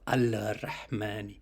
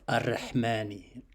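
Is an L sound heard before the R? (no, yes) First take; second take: yes; no. First: An L sound is heard before the R. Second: The L merges into a doubled R sound. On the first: The speaker calls it wrong. "instead of al-Rahmani" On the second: The speaker calls it right. "So the L is dropped, the lam is dropped"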